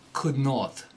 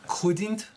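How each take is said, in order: First: It is said as two full separate words. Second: It is said as one contracted word.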